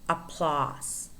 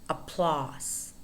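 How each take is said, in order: No difference in how they are said.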